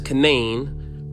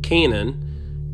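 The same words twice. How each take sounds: First: The name has its local pronunciation. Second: The name has its biblical pronunciation. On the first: This is how people in the area say it. "Locally pronounced as" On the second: This is how the name is said in the Bible. "the biblical pronunciation"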